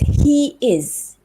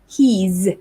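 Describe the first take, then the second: First: The pronoun and verb are said as two words. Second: The pronoun and verb are joined into one syllable. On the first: "What about this?" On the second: "You can contract it like this"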